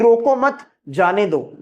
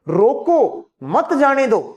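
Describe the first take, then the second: First: The pause comes after the word 'mat'. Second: The pause comes after the word 'roko'. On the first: Do not stop him; let him go. "इसका मतलब उसको रोकना नहीं है, जाने दो" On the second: Stop him; do not let him go. "इसका मतलब हो गया रोक लो उसको, मत जाने दो"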